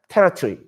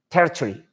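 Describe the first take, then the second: First: It is said with a British accent. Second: The same.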